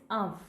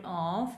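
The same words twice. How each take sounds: First: Of said as "uv"; correct OF. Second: Of said with a long open o, like "off"; wrong OF. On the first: Teacher correcting the pronunciation, short uv. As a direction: say of with a short uh and a v ending. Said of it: "this is of". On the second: Teacher showing how not to say it, drawn open of. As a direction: say of with a drawn aw vowel. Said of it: "but this is not of". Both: Shown as a demonstration.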